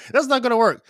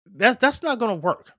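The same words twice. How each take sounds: First: Laughing, punchier repeat; laughing emphasis. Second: Said in the usual way. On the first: Shown as a demonstration. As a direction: repeat "That's not gonna work" louder, higher, faster, with a laugh.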